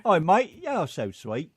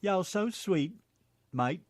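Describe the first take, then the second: First: Put-on laughing British-Tennessee mishmash accent. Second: Higher-pitched mock British Tennessee accent. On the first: Co-host teasing back in British Tennessee, laughing. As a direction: open loud and high, British mate meets Tennessee. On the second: Co-host answering with his own British Tennessee accent. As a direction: Tennessee phrase with a British twist. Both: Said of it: "Do a British Tennessee accent".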